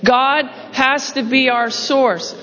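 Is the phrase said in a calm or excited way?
calm. It is said in a plain, calm way. "Say that with me"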